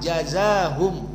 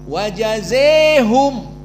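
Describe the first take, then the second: First: The long vowel is an open a. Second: The long vowel is bent fully toward e. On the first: This is the majority reading. "dibaca dengan fathah" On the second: This is the Kisai and Hamzah reading. "imalah Al-Kubra"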